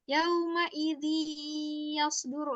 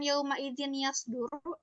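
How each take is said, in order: First: The n sound merges into the following ya. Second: The n sound is pronounced clearly before ya. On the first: The speaker calls it right. "langsung dimasukkan" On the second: The speaker calls it wrong.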